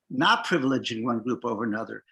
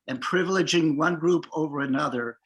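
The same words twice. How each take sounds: First: Not said with weight to correct the misreading; stress on not. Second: Said in the usual way. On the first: Shown as a demonstration. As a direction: correct yourself by hitting the word not.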